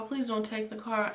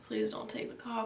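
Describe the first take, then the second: First: Said in the usual way. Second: Whispered plea. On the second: Retold or imitated. Panicked plea before the car.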